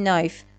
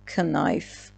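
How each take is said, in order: First: The word begins with an n sound. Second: The word begins with a k sound. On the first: The speaker calls it right. "پس اینو باید بگیم نایف" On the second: The speaker calls it wrong. "نه کنایف"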